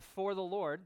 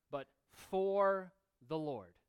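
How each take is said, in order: First: "for the Lord" quoted again with a push on "for"; quoted stress on for. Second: "for the Lord" drawn out slowly, "for" leaned on; slow down and press on "for"; stress on for the Lord. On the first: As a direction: point back at "for" with a firm push. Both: Shown as a demonstration. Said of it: "statement there is in the emphatic position".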